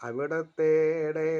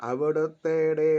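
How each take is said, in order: Both takes have the same delivery.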